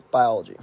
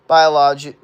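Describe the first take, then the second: First: Said in the usual way. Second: "Biology" blurted loud in an odd way; odd pronunciation slip. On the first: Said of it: "or, sorry, biology". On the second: Real, not acted. Streamer reading out chat trips on "Biology", oddly loud. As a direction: misfire on "Biology", much louder than usual. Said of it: "I don't know why I said like that".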